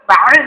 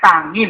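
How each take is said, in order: First: The word has a glottal catch before 'in'. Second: The word has a nasal 'ng' before 'in'. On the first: This is the standard recitation. "kan ta'in" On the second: An old teacher recited it this way. "tapi tangin"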